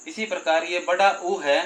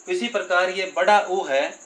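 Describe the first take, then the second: No difference in how they are said.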